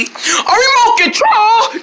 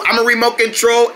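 First: High, drawn-out delighted squeal; excited cry. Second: Said in the usual way. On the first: Pretend. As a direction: exclaim it slowly and way up high. Others greet the pretend remote excitedly.

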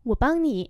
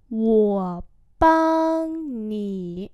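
First: Said in the usual way. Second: Each syllable drawn out slowly; slow teaching repeat. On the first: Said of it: "normal model". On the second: Shown as a demonstration. Teacher slowly models the phrase for students, drawn out. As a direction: spell it out slowly for learners. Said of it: "slow repeat".

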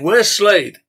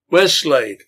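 First: Much higher, louder mob yell; the whole bar-room crowd yelling for Slade. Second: Louder, demanding shout from the crowd; a man in the mob shouting for Slade; shouted question. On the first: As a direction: roar it like an angry mob. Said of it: "The crowd yelled out again". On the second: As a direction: call out across a bar room. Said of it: "shouted one from the middle". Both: Acted.

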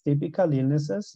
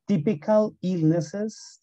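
First: Said in the usual way. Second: "typical illnesses" drawn out slowly with a rise; slow model. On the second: Shown as a demonstration.

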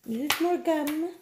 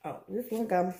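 First: High, slow drawn-out silly voice. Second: Said in the usual way. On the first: Pretend. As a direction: stretch it out in a goofy high voice. Repeats name in funny voice.

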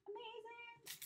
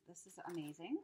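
First: Very high, soft singsong; high awed echo. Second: Said in the usual way. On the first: Real, not acted. Admiring the gift to herself, high awed echo. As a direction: coo it softly, way up high.

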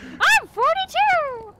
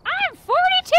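First: Put-on high, slow, loud childish shout; quoting a child. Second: Put-on high, loud childish shout of an age; quoting a child. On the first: Repeating the meme to explain the joke, slow, high and loud like a child. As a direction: drag it out like a boastful little kid. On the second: Gamer quoting a meme to friends, high and loud like a child. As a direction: squeal it like a proud little kid. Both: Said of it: "the joke is that, like, a six-year-old says it".

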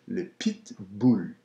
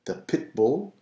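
First: Pitbull said slowly with a tight French I, bull like boule; stronger French I. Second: Said in the usual way. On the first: Shown as a demonstration. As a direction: stretch le pitbull, bright French i. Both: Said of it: "a little stronger I".

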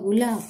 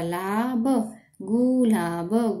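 First: Said in the usual way. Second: gulab drawn out slowly; sounding out slowly. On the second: Shown as a demonstration. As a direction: stretch gulab syllable by syllable.

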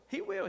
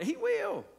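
First: He will, with will lifted high and held; preacher insists He WILL, pitching will up high; stress on will. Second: Said in the usual way. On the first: Shown as a demonstration. Preacher assuring his church: stress on will.

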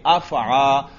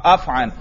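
First: अफ़आ ending in long open aa; lower-pitched अफ़आ, open final vowel; form without tanween. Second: अफ़अन with short vowel and final n; falling अफ़अन, n at the end; tanween form. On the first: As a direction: leave off the n in अफ़आ. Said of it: "तो फिर कैसे पढ़ेंगे?". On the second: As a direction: close अफ़अन on an n sound. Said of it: "तो क्या बन गया था?". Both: Shown as a demonstration.

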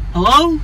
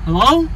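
No difference in how they are said.

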